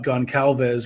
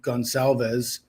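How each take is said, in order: First: The C is sounded hard, like a K. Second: The C is sounded soft, like an S. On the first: The speaker calls it wrong. "with a hard C" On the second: The speaker calls it right. "with a soft C"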